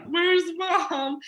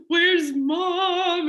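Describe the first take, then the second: First: High, pleading, tearful repeat; crying again. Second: High and loud, a tearful call for mom; crying out for mom in distress. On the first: Repeating it to her worried stepdad, high and tearful. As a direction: ask for mom once more through tears. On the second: To her stepdad downstairs, high, loud and tearful. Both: Retold or imitated.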